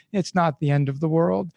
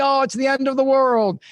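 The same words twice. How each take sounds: First: Said in the usual way. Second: Higher, mock-tragic wail; melodramatic teen despair. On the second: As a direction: play it like a crushed teenager. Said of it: "and you think".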